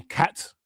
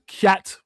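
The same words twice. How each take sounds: First: "cat" in standard English, said softly under the breath; "cat" with a plain English vowel, barely voiced; the English way of saying "cat"; English pronunciation. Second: "cat" said with a Jamaican vowel, slightly higher; Jamaican pronunciation. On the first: Shown as a demonstration. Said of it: "rather than". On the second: Retold or imitated. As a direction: say "cat" the way a young Jamaican boy would. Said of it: "I said "cat" rather than "cat".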